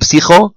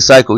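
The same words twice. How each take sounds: First: The word is pronounced the Hebrew way. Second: The word is pronounced the English way. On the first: The speaker calls it right. "In Ivrit, you say, ... you say psycho" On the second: The speaker calls it wrong. "you don't say psycho"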